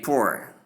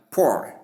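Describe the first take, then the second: First: "poor" with an oo-uh glide; ua diphthong. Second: "poor" with a long O, like "pour"; long O vowel. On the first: Teacher showing the second pronunciation of poor, ua sound. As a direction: say "poor" as "POO-er". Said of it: "the second is poor". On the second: Teacher showing the first pronunciation of poor, long O. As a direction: say "poor" rhyming with "more". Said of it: "the first is poor". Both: Shown as a demonstration.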